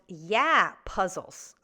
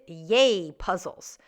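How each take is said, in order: First: The first word sounds like 'yeah'. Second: The first word sounds like 'yay'. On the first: The speaker calls it right. "It should be pronounced Yeah Puzzles" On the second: The speaker calls it wrong. "I pronounced it Yay Puzzles"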